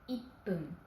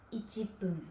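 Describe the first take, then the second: First: The middle has a doubled, held 'p'. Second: The middle has a full 'chi' syllable. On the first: The speaker calls it right. "mais ippun" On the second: The speaker calls it wrong. "On ne dit pas ichipun"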